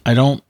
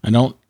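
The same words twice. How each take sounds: The two takes are said the same way.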